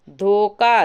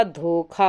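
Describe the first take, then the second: First: धोखा with plain k, loud "dhokaa"; loud धोखा without breath on the k; wrong form. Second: धोखा with aspirated kh, "dhokhaa"; correct form. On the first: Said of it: "धोखा नहीं होता". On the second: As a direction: breathe out on the kh of धोखा. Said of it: "धोखा होता है". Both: Shown as a demonstration.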